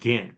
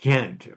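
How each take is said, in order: First: It is said in an American English way. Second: It is said in a local Belgian way. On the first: This is how the speaker himself says the name. The speaker calls it wrong. "I call it Ghent" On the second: This is how locals say the name. The speaker calls it right. "I know you call it Ghent or something like that"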